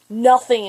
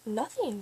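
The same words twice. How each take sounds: First: Loud, exasperated one-word retort; retold outburst, punched loud; retold angry snap. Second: Quiet, dismissive answer; retold brush-off. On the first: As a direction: snap it out as if fed up with being asked. Snaps after slamming the locker. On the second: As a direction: brush the question off under your breath. Brushing off repeated question, before snapping.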